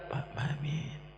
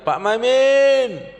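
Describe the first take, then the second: First: The name is said softly and quietly. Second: The name is called out loudly. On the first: The person being called is very near. "Kalau Pak Maimin lebih dekat" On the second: The person being called is still far away. "itu tandanya masih jauh"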